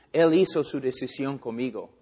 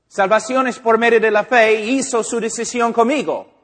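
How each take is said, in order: First: Said in the usual way. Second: Louder, higher, digging in on the point; mock believer loudly defending his convert; insistent defensive protest. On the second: Believer loudly insisting to the preacher, mock defensive.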